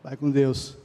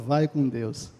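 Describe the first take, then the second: First: It is said with resentment and bitterness. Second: It is said warmly, with a smile.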